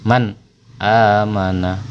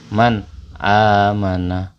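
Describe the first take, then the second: The two takes are said the same way.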